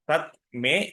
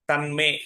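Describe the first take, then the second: First: The words are separated with a t sound. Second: The words are joined with an n sound. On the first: "తన్మే అంటే తత్ మే" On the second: "తన్మే అంటే తత్ మే"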